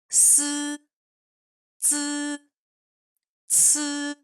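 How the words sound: The syllables are said the Chinese way. The speaker calls it right. "En chinois, il se prononce comme"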